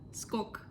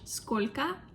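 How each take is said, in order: First: The word is cut to one short syllable. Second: The word has two syllables. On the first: "we can pronounce like скок" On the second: "like how much"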